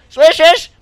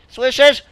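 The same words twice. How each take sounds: First: "Słyszysz?" called louder with a rise. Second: Said in the usual way. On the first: Shown as a demonstration. Asking the crowd if they hear it, louder and rising.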